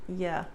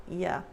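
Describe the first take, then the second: The two takes are said the same way.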